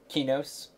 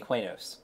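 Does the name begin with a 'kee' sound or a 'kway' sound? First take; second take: kee; kway. First: The name begins with a 'kee' sound. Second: The name begins with a 'kway' sound. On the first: This is how the game's developers say it. The speaker calls it wrong. "They're all saying it wrong" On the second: This is how the speaker says it. The speaker calls it right. "I say Quainos"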